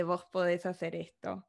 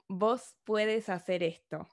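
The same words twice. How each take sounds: First: "Vos podés hacer esto" with stress on the last syllable of podés; even, easy Rioplatense "Vos podés", stress on DÉS; Argentine voseo. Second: "Vos puedes hacer esto" said slowly, vos with the tú verb form puedes; slow, deliberate demo of "Vos puedes" with stress on PUEDES; Ecuadorian voseo. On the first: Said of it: "en vez de". (voseo rioplatense: "Vos podés hacer esto", acento en podés) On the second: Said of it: "Entonces dicen algo así como". (voseo ecuatoriano lento: "Vos puedes hacer esto", con puedes de tú) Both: Shown as a demonstration.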